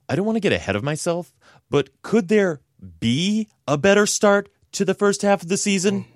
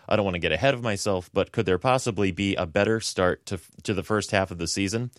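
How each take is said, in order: First: It is read in a Chandler impression voice. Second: It is read in his normal voice.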